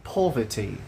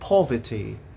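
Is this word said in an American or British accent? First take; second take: British; British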